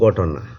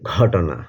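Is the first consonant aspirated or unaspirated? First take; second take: unaspirated; aspirated. First: The first consonant is unaspirated, with no breath puff. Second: The first consonant is aspirated, with a breath puff. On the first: "Sylheti ভাষায় বললাম ঘটনা" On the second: "Bangla উচ্চারণ হবে ঘটনা"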